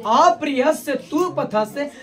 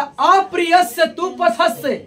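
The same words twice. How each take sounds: First: अप्रिय at normal pitch, slow, rising at the end for the explanation; repeated verse, explaining. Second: अप्रिय raised high and slow, falling at the end; recited verse, first take. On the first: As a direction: repeat it slowly, lifting toward the meaning. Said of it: "माने कड़वा बोली बोलने वाले". (धीमा दोहराव, अंत में उठता स्वर) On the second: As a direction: lift अप्रिय high and draw the line out slowly. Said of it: "अप्रिय से तू पथस्य", माने". (अप्रिय पर ऊँचा ज़ोर, धीमा पाठ) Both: Shown as a demonstration.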